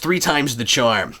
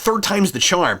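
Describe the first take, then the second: First: It is said in a put-on Batman voice. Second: It is said in a plainer, normal voice.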